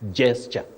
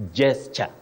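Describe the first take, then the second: First: The word begins with a J sound. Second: The same.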